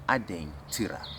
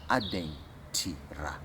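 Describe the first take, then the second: First: The word is said at normal speed. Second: The word is said slowly.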